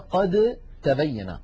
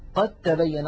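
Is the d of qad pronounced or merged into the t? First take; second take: pronounced; merged. First: The d is pronounced before the t. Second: The d merges into a doubled t.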